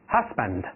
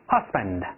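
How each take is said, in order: The two takes are said the same way.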